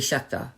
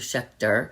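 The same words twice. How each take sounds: First: The final syllable ends without an r sound. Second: The final syllable ends with a clear r sound. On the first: This is the speaker's Long Island pronunciation. "I say Schechter. So I have a little bit of an accent" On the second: This is the standard pronunciation. "which normal people would pronounce Schechter"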